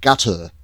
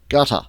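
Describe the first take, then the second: First: The word ends in a full er sound. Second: The word ends in a short ah sound. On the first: "if you're doing it purely phonetically" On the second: "almost like it ends in an A other rather than an er"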